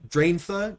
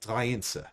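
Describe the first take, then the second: First: The middle consonant is a th sound. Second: The middle consonant is an s sound.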